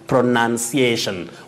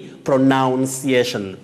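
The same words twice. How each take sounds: First: The second syllable sounds like 'nun'. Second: The second syllable sounds like 'noun'. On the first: The speaker calls it right. "you say pronunciation" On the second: The speaker calls it wrong. "We have the verb pronounce, but don't say pronunciation"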